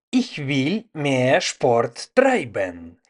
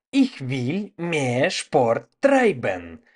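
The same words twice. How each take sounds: The two takes are said the same way.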